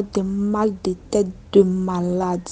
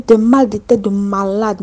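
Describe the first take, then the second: First: Said in the usual way. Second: "Des mal de tête de malade" repeated louder and firmer, every word leaned on; emphatic repeat. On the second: Shown as a demonstration. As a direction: hammer the phrase home a second time. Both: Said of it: "J'ai dit".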